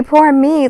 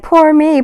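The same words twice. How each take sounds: First: High mocking repeat; mocking whine. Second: High mocking poor me; mocking whine. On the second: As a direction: sneer it up high like a crybaby. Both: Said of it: "I'm like".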